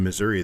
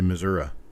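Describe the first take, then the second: First: It uses the general, widespread pronunciation. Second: It uses the local Missouri pronunciation. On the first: This is how most people say the name. "instead of saying Missouri" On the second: This is how many locals say the name. "a lot of people from Missouri ... they say Missouri"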